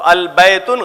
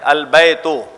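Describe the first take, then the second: First: The second word ends with an added n. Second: The second word ends in a plain vowel. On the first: The speaker calls it wrong. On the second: The speaker calls it right.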